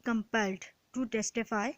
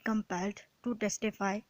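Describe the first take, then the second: No difference in how they are said.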